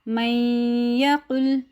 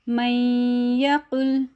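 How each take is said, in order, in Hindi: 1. न य में मिल जाता है, नासिका की आवाज़ थोड़ी देर रोककर। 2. न य में मिल जाता है, नासिका की आवाज़ थोड़ी देर रोककर।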